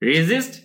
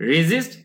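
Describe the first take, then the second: First: The middle consonant is a buzzing z sound. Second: The middle consonant is a buzzing z sound.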